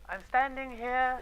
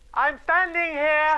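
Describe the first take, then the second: First: The line is spoken too quietly. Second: The line is spoken too loudly. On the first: "Perhaps split the difference" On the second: "does not mean you need to speak louder"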